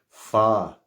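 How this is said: It is said in an English British accent. "in England, they don't pronounce it like that. They say fa"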